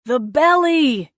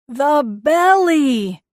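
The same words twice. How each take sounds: First: Slow, loud calling out; distant shout. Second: Very slow, loud, hoarse call; raw shout. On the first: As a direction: call it across the roaring wind. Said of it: "he shouted". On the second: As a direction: yell it till the throat goes raw. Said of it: "shouted until his throat went raw". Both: Acted.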